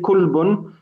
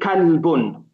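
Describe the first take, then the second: First: The first vowel is a u sound. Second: The first vowel is an open a sound. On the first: The speaker calls it wrong. "We're not going to say kulbun" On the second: The speaker calls it right. "We have to say kalbun"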